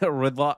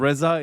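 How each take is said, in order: First: The middle consonant is a d sound. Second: The middle consonant is a z sound. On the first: This is the Arabic form of the name. "as you guys would say" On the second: This is the Persian form of the name. "You said Imam Reza"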